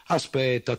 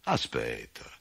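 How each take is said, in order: First: Higher, louder hasty repeat; higher, louder hasty farmer; hurried farmer. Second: Low, drawn-out stalling; a lower put-on farmer stalling for time; low grumbling farmer. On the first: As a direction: brush him off quickly. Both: A narrator's reading. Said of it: "rispose il contadino".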